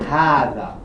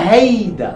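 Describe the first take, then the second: First: The middle consonant is a soft th-like sound. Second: The first vowel sounds like e, not a. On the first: "Este, em clássico árabe" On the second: "Libanês, aonde tem letra A, ele pronuncia E"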